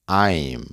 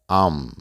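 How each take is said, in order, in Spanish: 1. Se dice de forma formal y cuidadosa. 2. Se dice de forma informal y casual. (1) "De manera formal se pronuncia" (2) "de manera informal se pronuncia"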